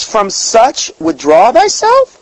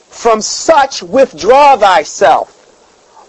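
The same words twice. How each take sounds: First: "withdraw thyself" slow, rising to a question at "thyself"; questioning the verse. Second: "withdraw thyself" very slow, falling, weighty; solemn scripture reading. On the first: Preacher turning the verse into a question, higher, rising. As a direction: ask it back, higher and rising. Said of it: "Well, who?". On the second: Preacher reading the verse aloud, slow and falling. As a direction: lay out "withdraw" slowly like a verdict. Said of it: "From such withdraw thyself"? Well, who?". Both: Shown as a demonstration.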